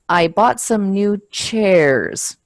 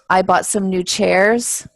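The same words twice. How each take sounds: First: The voice falls at the end. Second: The voice does not fall at the end. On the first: The speaker has finished the sentence. The speaker calls it right. "It goes down at the end" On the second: The speaker is not finished yet. The speaker calls it wrong. "I think that you're not finished"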